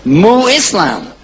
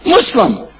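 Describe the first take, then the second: First: Mu Islam said slowly, prefix held; slow demonstration. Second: Muslim said as one quick word; merged form. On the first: Teacher building the word Muslim, slowly. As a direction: join Mu Islam slowly before merging. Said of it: "Whoever does Islam is a what?". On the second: Teacher showing the merged word Muslim. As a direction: snap Mu Islam together into Muslim. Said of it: "Let me hear you say Muslim". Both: Shown as a demonstration.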